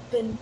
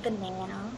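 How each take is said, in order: First: "banana" with a broad "ah" in the middle; Australian pronunciation. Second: "banana" mimicking the American flat "a"; imitated American pronunciation. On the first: Shown as a demonstration. Correcting an American on "banana", Australian broad-ah pronunciation. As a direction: say "banana" as bə-NAH-nə. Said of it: "Not banana". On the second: Showing friend their own "banana", imitated American pronunciation. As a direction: say "banana" as bə-NAN-ə, as the wrong example. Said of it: "that's how I say it".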